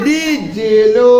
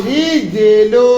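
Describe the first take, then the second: The two takes are said the same way.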